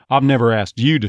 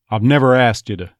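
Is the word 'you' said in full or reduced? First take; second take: full; reduced. First: The word 'you' is stressed with a full vowel. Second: The word 'you' is unstressed and reduced to 'ya'. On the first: "unless it's definitely stressed" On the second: "if it's not stressed like that ... it's usually going to be thrown away"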